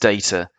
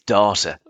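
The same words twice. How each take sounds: First: The word is said in an English accent. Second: The word is said in an Australian accent. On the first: "I'm English, so it's data" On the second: "if we've got any Aussies listening, it's data"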